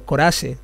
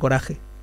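First: The j sounds like an s. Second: The j is a harsh throat sound. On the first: "la J también la pronunciáis como S" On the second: "en vez de"

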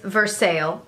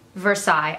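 First: It is said with an Indiana pronunciation. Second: It is said with a French pronunciation.

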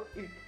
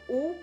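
First: The vowel is a front rounded ü sound. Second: The vowel is a back rounded oo sound. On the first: This sound does not exist in Spanish. "pero no U" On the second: This sound exists in Spanish. "Tenemos el sonido U"

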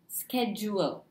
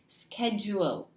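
First: The ending is drawn out into two syllables. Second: The same.

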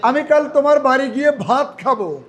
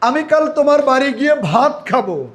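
First: The word ভাত is stressed. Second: The same.

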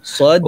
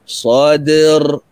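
First: The final d is broken off sharply. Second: The final d flows on without a break. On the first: The speaker calls it wrong. "Dia qalqalah yang dibacakan seperti tadi" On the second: The speaker calls it right. "Nampak dia tak putus"

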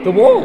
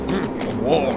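First: It is said excitedly, with the voice cracking. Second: It is said calmly, with a steady voice. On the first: The speaker calls it wrong. "that cracked my voice again" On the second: The speaker calls it right. "I need to not be excited"

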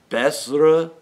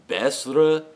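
The two takes are said the same way.

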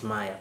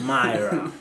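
First: The word is said without an R sound. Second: The word is said with an R sound.

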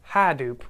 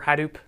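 First: The stress is on the first syllable. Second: The stress is on the second syllable. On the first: "with the emphasis on the ha" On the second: "some people say Hadoop or Hadoop"

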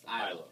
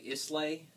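First: The word is said differently from its spelling. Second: The word is read just as it is spelled. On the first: The speaker calls it right. "but it's pronounced Islay" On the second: The speaker calls it wrong. "It looks like Islay"

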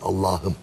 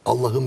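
First: The vowel is drawn out long. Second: The vowel is said short. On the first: The speaker calls it right. "vav, elif, ye harfleri çekilir" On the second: The speaker calls it wrong. "Allah'ım değil"

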